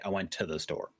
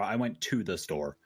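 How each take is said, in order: First: The words run together in a relaxed way. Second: Each word is said carefully and formally.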